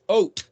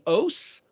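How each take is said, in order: First: The word ends with a t sound. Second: The word ends with an s sound. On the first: "It's pronounced ot" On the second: "the Tav is pronounced as an S"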